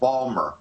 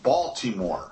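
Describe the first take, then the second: First: The word is shortened, dropping the middle sounds. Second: The word is said in full with every syllable.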